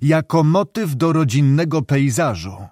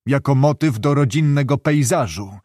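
First: Jako motyw do rodzinnego pejzażu pressed home, motyw stressed; with emphasis. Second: Said in the usual way. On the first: A narrator's reading. Doctor repeating his jab at the director, pointed and emphatic. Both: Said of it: "powtórzył z naciskiem".

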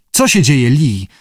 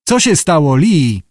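First: Said in the usual way. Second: Calling out. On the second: A narrator's reading. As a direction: call to her across the beach. (głośne wołanie z niepokojem) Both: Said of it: "wołał Abe".

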